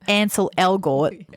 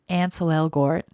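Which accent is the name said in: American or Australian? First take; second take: Australian; American. First: The name is said in an Australian accent. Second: The name is said in an American accent. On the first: The name sounds awkward this way. The speaker calls it wrong. "I don't think it's a name that flows off the tongue in an Australian accent" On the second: The name sounds a bit better this way. The speaker calls it right. "I think maybe if you're American"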